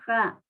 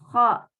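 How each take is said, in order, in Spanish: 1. El sonido de la garganta es suave y débil. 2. El sonido de la garganta es áspero y fuerte. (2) "es más fuerte"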